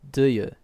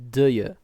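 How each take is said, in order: First: The two words blend into one sound. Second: The two words blend into one sound.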